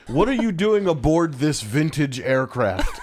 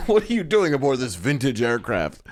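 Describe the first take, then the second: First: Quoting the stilted line while laughing; amused retelling of a clunky movie line; laughing through the quote. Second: A touch of a stiff, hammed-up actor voice; mock wooden delivery of the pilot's line; stilted movie line. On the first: Retold or imitated. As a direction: giggle your way through the silly line. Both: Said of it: "He goes".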